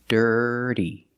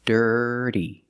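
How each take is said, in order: First: The middle consonant is a quick, soft D. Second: The middle consonant is a quick, soft D.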